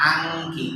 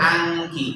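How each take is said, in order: Both takes have the same delivery.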